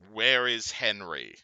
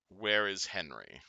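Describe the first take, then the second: First: It is said louder, with more force. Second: It is said softly in a deep, flat voice. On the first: "its voice getting louder" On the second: "It says in a deep monotone voice"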